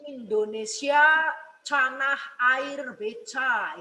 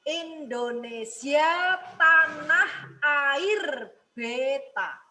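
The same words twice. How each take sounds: First: T turned to ch in canah and beca; mispronounced demo, ch for t in canah, beca; faulty articulation. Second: Very slow tanah and beta with clean t sounds; slow, fully sounded Indonesia, tanah air beta; clear, correct articulation. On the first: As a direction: say tanah and beta as canah and beca. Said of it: "keliru, ya, kalau seperti itu". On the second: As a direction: draw out each syllable, crisp t in tanah and beta. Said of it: "Itu artikulasi yang benar dan jelas". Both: Shown as a demonstration.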